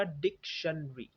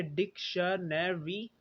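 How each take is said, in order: First: डिक्शनरी shortened to dik-shun-ree; schwa dropped. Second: डिक्शनरी as dik-shuh-ne-ree, slowly; full four-syllable form. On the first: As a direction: drop the middle vowel: डिक्शनरी as three syllables. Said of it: "ये बन जाएगा". (डिक्शनरी छोटा करके: डिक-शन-री) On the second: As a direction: keep every syllable of डिक्शनरी, including "ne". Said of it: "ये था पहले". (डिक्शनरी पूरे चार सिलेबल में: डिक-श-ने-री) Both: Shown as a demonstration.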